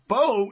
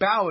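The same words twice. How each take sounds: First: The vowel rhymes with 'go'. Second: The vowel rhymes with 'cow'. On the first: It means the weapon used with an arrow. "So Bow is more like with the arrow" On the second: It means the front of a boat. "and Bow is the front of the boat"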